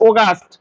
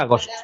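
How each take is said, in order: First: অগাস্ট starting with an o sound; English অগাস্ট, au said as o; English pronunciation. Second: আগস্ট starting with an open a; Bengali pronunciation. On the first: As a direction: round the opening of অগাস্ট to o. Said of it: "এ ইউ উচ্চারণ হবে সবসময় ও". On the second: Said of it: "বাংলায় আগস্ট". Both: Shown as a demonstration.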